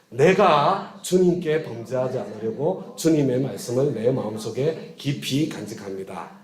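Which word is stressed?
내가. The stress is on 내가.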